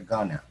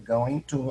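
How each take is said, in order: First: The words are blended into one reduced word. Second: Both words are said fully and separately. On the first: "en spoken English comúnmente se pronuncia gonna" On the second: "esta forma going to"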